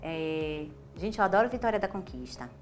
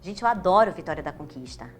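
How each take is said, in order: First: It sounds timid and held back. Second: It sounds light, open and relaxed.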